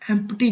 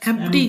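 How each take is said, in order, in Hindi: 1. बीच में p की ध्वनि बोली जाती है। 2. बीच में p की ध्वनि छोड़ दी जाती है। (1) "एम्प्टी नहीं" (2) "पी साइलेंट है"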